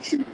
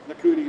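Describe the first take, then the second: First: The name begins with a 'sh' sound. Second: The name begins with an 'n' sound. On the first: The speaker calls it right. "everybody says pronounce it Shooty" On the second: The speaker calls it wrong. "at the very beginning of my show, I was going like Nakuti"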